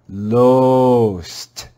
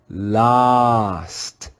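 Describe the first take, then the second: First: The vowel is a long O sound. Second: The vowel is a short O sound. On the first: "try to read it with a long O sound" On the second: "read it with a short O sound"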